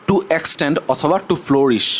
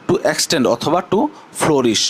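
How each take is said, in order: No difference in how they are said.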